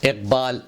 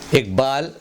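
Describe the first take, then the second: First: "اقبال" with back q before b; careful iqbaal for "اقبال"; correct q sound. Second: "اقبال" as igbaal, with g; mispronounced g for q. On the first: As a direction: say "اقبال" as iqbaal, not igbaal. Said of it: "صحیح تلفظ". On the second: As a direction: say "اقبال" with g replacing q. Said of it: "غلط ہے". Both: Shown as a demonstration.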